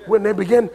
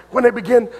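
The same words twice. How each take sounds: The two takes are said the same way.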